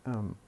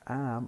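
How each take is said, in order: First: The word has a reduced schwa vowel. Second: The word has a full, clear vowel. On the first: "we say um, the weak form" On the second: "instead of saying am"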